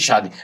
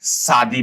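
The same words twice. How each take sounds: First: The word begins with an sh sound. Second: The word begins with an s sound. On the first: The speaker calls it right. "Correct pronunciation भी शादी ऐसे ही है" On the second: The speaker calls it wrong. "ये वाला सौ से pronounce करते हैं"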